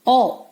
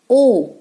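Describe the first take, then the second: First: ओ said as open 'aw', as in not; short phonics ओ, not the letter name; short O sound. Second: ओ said as 'oh', as in note; long rounded ओ, the vowel of 'note'; long O sound. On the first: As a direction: give ओ the short vowel of 'hot'. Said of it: "short sound है". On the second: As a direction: give ओ the letter name of O. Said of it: "long sound है". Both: Shown as a demonstration.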